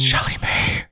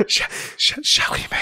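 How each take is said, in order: First: Hushed whisper of a name. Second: Whispered again, stuttering start; whispering. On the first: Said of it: "Why did you whisper it to me?". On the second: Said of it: "says it again, whispering". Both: Real, not acted.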